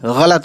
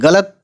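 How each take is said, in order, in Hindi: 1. यह गले से निकली, खरखरी gh की ध्वनि से शुरू होता है। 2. यह साधारण, कड़े g की ध्वनि से शुरू होता है। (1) "गलत है गैन से" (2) "गलत कोई वर्ड है ही नहीं"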